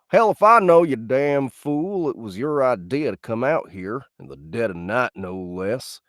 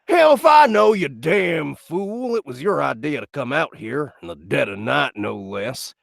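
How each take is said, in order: First: It is said calmly, without exclamation. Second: It is said loudly, as an exclamation.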